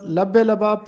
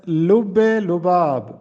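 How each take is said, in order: First: لب لباب said "lab-e-labaab" with short "a" vowels; the everyday لب لباب, "lab" not "lub"; لب لباب with open "a" in both words; common wrong pronunciation. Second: لب لباب said "lub-e-lubaab", "u" in both words; teacher's slow لب لباب with rounded "u" vowels; لب لباب carefully rounded, "lub-e-lubaab"; correct pronunciation. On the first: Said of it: "جو کہ غلط ہے". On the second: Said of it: "درست تلفظ ہے". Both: Shown as a demonstration.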